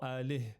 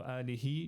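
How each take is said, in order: First: The word ends with an audible h sound. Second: The word ends with a vowel after the h. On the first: "you need to pronounce the h" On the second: "you can say alihi just to emphasize it"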